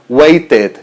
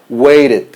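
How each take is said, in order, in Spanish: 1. La t del medio es una t clara y plena. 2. La t del medio es un flap rápido, parecido a una r. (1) "no lo podemos pronunciar waited. Eso es una pronunciación incorrecta" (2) "Estamos haciendo un sonido de R para la T y ese sonido de la E D es como un it"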